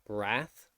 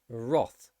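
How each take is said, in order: First: The vowel is an 'a' sound. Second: The vowel is an 'o' sound. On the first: This is the American pronunciation. "in American English, it would be um, wrath with an a sound" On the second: This is the British pronunciation. "in British English, it is not an r. It's actually wrath. ... it has an o sound"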